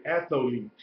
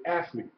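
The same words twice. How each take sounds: First: "athlete" with an extra vowel after the th, ath-o-lete; fully pronounced. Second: Said in the usual way. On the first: Shown as a demonstration. Teacher showing the class "athlete" without the diphthong, fully pronounced. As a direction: stretch "athlete" into three syllables. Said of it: "pronounce it all the way out". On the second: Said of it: "But it's a diphthong".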